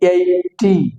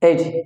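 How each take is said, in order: First: The word is said as two separate syllables. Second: The word is run together in one syllable. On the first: The speaker calls it wrong. "দুইটা syllable বলেছিল" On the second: The speaker calls it right. "একটা syllable mister [name] বলেছে এইটি"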